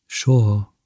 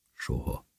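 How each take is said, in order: First: Said in the usual way. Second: "soha" breathed as a soft whisper; whispered repeat. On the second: A narrator's reading. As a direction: let "soha" fade into a whisper. (suttogva ismételt "soha") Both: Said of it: "ismételgette".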